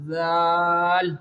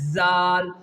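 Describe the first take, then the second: First: It starts with a soft th sound. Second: It starts with a buzzing z sound. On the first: The speaker calls it right. "there is no Z sound in its pronunciation" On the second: The speaker calls it wrong. "You have not to say Zal as Zal"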